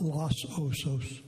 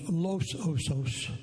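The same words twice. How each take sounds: First: The name is pronounced with English vowels. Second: The name is pronounced with Spanish vowels. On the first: The speaker calls it wrong. "not Los Osos" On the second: The speaker calls it right.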